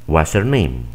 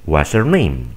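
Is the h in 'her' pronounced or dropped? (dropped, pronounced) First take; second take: dropped; dropped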